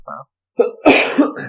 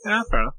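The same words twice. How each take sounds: First: Very slow, drawn-out fair enough; drawn-out concession. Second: Said in the usual way. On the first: Shown as a demonstration. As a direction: stretch fair enough grudgingly.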